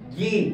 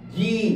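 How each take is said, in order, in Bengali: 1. অক্ষরটি 'zee' হিসেবে উচ্চারিত হয়, আমেরিকান ধাঁচে। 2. অক্ষরটি 'zee' হিসেবে উচ্চারিত হয়, আমেরিকান ধাঁচে।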